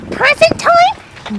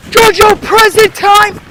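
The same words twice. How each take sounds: First: Put-on very high, drawn-out little-boy voice; eager kid. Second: High, loud, drawn-out sing-out; luring call. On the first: Cousin upstairs hears of presents, high eager squeak. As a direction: squeak it slowly like an excited kid. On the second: Retold or imitated. Teen lures cousin downstairs, high loud calling. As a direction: call it out slowly to lure a child down.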